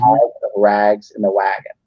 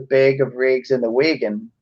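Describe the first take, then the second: First: The A vowels are said as an open sound. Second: The A vowels are said as a closed sound. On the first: This is the common pronunciation elsewhere. "where the rest of us would use an open A" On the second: The speaker is from a regional dialect. "They've just used a long closed A sound"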